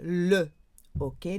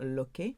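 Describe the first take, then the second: First: The article is said as a separate syllable. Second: The article is joined onto the noun. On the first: The speaker calls it right. "you would say le hockey" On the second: The speaker calls it wrong. "not l'hockey"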